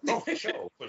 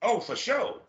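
First: Eager agreement. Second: Said in the usual way. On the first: Real, not acted. Host eagerly accepting invitation to hang out. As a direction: say it gladly, reaching up.

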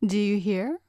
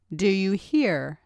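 First: Rising pitch on "hear"; questioning demand. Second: Slow, falling close on "hear"; slow it down and drop firmly on "hear"; insistent demand. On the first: Girl demanding an answer from the man, questioning. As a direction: ask it with the voice lifting on "hear". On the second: Girl repeating her demand to the man, insistent. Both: A narrator's reading.

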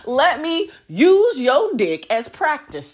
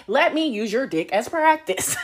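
First: Louder, slower, every word "Let me use your dick as practice" leaned on; slow emphatic repeat. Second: Said in the usual way. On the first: Shown as a demonstration. Repeating the punchline to her audience, slow and emphatic. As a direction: drag out "use" and land each word. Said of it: "repeated for emphasis". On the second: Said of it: "Be like".

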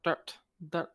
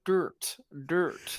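First: Dirt in a Scottish accent, r barely there; short Scottish dirt, sounding near dot. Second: Attempted American dirt with a hard r; American accent. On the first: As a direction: demonstrate your own Scottish dirt. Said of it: "It's that Scottish accent that does it". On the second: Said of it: "is that your American accent?". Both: Shown as a demonstration.

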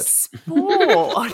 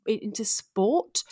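First: Sport said slowly and louder, rising at the end, like a strange word; odd sport. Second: Sport said slowly, like an unfamiliar word; odd sport. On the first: Shown as a demonstration. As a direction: say Sport as if you'd never heard it. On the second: Real, not acted. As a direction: drawl out sport as if it were a foreign word. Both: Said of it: "you said it like you'd never even heard the word".

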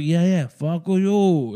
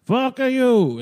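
First: Slow, drawn-out mock French dismissal; mock French accent. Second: Higher, louder mock Italian retort; mock Italian accent. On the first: French troops mocking the British, slow mock French accent. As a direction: stretch it out like a sneering Frenchman. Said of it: "Is that French?". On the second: French troops taunting the British, louder mock Italian accent. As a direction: bark it out like a hammed-up Italian. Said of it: "It's more Italian, I guess".

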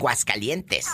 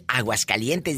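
First: "Guascalientes", the initial A dropped, said slowly; mocking popular "Guascalientes" for Aguascalientes; clipped first vowel. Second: "Aguascalientes" with its opening "A" clearly sounded; full pronunciation. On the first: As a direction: start "Guascalientes" straight on "Guas", no A. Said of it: "dicen Guascalientes". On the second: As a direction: say all of "Aguascalientes", starting on the A. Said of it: "Porque muchas no dicen Aguascalientes". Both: Shown as a demonstration.

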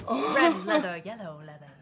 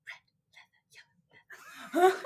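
First: Prim precise elocution. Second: Breathy slow witch whisper; Winifred voice. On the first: Shown as a demonstration. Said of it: "I can't do it, like, in a normal voice". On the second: Retold or imitated. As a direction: hiss it slowly like a witch. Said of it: "trying to be like Winifred from Hocus Pocus".

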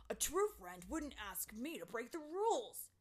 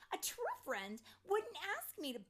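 First: Loud, angry character voice, less high; Terrance yelling back. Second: High, loud, indignant fairy voice; Tink's angry yell. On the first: Terrance answers Tink's accusation, angry yelling. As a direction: yell back in a put-on voice. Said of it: "Terrance yelled back". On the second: Tink yells at Terrance, angry. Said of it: "change my voice from Tink's voice". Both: A narrator's reading.

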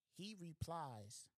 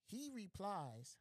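First: Drawn-out suspense; slow dramatic setup. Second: Drawn-out, higher teasing buildup; slow dramatic setup. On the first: Storyteller drags out the setup slowly before the punchline. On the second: Storyteller slowly teasing the punchline to listeners. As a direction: stretch the words to hold suspense. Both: Acted.

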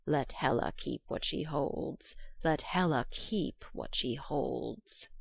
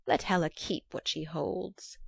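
First: Slow, low croaking hag-crow. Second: Put-on the old witch, grim and matter-of-fact; hag voice. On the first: Acted. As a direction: croak it out like a crow-witch, slowly. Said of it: "she went through the world croaking". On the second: Hag says it first.

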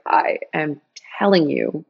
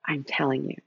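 First: Deliberate, spelled-out "I am telling you"; firm insistence. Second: Low, soft, earnest assurance; quiet insistence. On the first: To Diana at adoption agency, "telling" firmly stressed. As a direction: separate "I am" and lean on "telling". Retold firmer repeat to agency. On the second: To Diana at adoption agency, quietly insistent. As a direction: insist gently, dropping the voice. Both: Retold or imitated.

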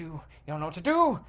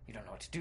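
First: Quick, louder burst of alarm; rising panic. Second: Low, very soft narration; hushed dread. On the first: Cornered player with knives closing in, panicked. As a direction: blurt it out, spiking on the last word. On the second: Cornered player with knives closing in, hushed. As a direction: murmur it, barely voiced. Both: A narrator's reading.

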